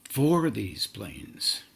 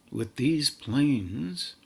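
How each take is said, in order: First: Slow, FOR hit first and falling away; stress on FOR. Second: Slow, with THESE lifted high; stress on THESE. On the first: Teacher correcting the wording to for these planes, stress on FOR. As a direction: correct it with a long, weighty FOR. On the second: Teacher describing engagement with the planes, stress on THESE. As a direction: draw out "with these planes", leaning on THESE. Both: Real, not acted.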